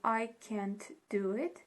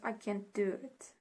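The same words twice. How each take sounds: First: Words are separate, with a clear t sound. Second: Words are linked, with a d-like t sound. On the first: "instead of saying" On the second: "it becomes"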